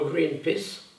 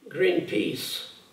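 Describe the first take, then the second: First: The second vowel is cut short. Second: The second vowel is held long. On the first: The speaker calls it wrong. "vous dites malheureusement Greenpeace" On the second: The speaker calls it right. "si vous confondez Greenpeace"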